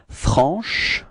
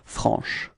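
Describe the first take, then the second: First: The final sh sound is drawn out. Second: The final sh sound is short. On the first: "I insist a little bit on the sh at the end" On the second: "it should be pronounced like franche"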